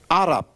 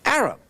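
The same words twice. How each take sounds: First: "Arab" with an open "ah" first vowel, AH-rab; native-style pronunciation. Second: "Arab" said the English way, with a flat first A as in "apple"; English pronunciation. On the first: Preacher showing how they pronounce it, "Arab" as AH-rab. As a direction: say "Arab" as Arabs do, starting "ah". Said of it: "that's how they pronounce it". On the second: Preacher contrasting English and native names, "Arab" in English pronunciation. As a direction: say "Arab" as English speakers do, opening like "air". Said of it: "Arab is English pronunciation". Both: Shown as a demonstration.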